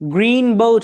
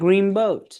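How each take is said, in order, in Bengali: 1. 'green' শব্দটি একটি স্পষ্ট n ধ্বনি দিয়ে শেষ হয়। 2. 'green' শব্দটি m-এর মতো একটি ধ্বনি দিয়ে শেষ হয়। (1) "গ্রিন বোট হয়ে যাবে" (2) "it will be changed with ম sound"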